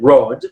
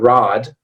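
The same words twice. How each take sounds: First: It is said with a British vowel. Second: It is said with an American vowel. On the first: "Your pronunciation, Lorena, is more uh, more British" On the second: "my American English would probably be more like one of these"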